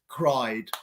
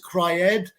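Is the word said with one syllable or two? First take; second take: one; two. First: The ending adds no extra syllable. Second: The ending is said as an extra syllable. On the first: The speaker calls it right. "it's cried" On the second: The speaker calls it wrong. "No es cried"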